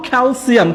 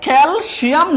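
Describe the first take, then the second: First: "ক্যালসিয়াম" as kel-SIAM; a clear s in "ক্যালসিয়াম"; corrected S sound. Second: "ক্যালসিয়াম" slowly as kel-SHIAM; mispronounced SH. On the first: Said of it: "আমরা এটাকে বলবো". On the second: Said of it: "না বলে আমরা এটাকে বলবো". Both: Shown as a demonstration.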